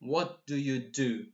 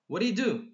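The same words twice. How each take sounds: First: The question is said slowly and carefully. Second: The question is said very quickly. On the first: "they don't say" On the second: "It's like very fast"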